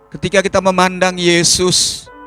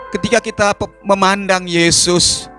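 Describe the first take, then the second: No difference in how they are said.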